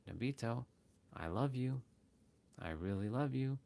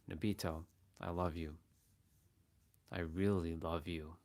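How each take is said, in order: First: It is said warmly, full of love. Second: It is said darkly, with sinister intent.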